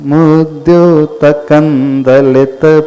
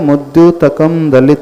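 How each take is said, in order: First: The first word ends with an n sound. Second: The first word ends with an m sound. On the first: This is how many people recite it. "मुद्योतकम ना पढ़ करके वो ना पढ़ते हैं" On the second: This is how it is written. "दूसरी पंक्ति में क्या लिखा है?"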